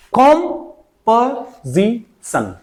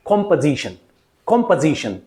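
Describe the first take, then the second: First: "composition" broken very slowly into kom, puh, zi, sun; four separate slow syllables for "composition". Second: "composition" joined up as KOM-puh-ZI-shun; whole word "composition", lower, falling at the end; correct pronunciation. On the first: ("composition" को एक-एक syllable तोड़कर, बहुत धीरे) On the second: ("composition" का पूरा सही उच्चारण, कॉम-प-ज़ि-शन) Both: Shown as a demonstration. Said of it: "what is the correct way".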